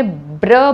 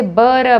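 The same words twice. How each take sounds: First: "ब्र" with b running straight into r; blended consonants. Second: "बर" with a vowel between b and r; split blend. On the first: Teacher models the correct sound for children, blended "ब्र". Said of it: "आपने ब्र बोलना है". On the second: Teacher shows how a child reads it, split blend "बर". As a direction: say "बर" as b-uh-r, the consonants kept apart. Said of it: "बर बोलेगा, आपने ब्र बोलना है". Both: Shown as a demonstration.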